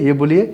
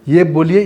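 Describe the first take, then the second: The two takes are said the same way.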